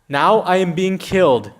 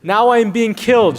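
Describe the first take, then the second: First: It is said gently and softly. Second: It is said angrily and forcefully.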